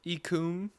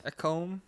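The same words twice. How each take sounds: First: "Ecom" said as EE-koom, questioning; alternative pronunciation. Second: "Ecom" said as EH-kome, questioning; "Ecom" as "eck-ome?"; alternative pronunciation. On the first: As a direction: try "Ecom" with long EE and an OO. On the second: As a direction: try "Ecom" with short EH and long O. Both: Shown as a demonstration. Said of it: "or is it ecom?".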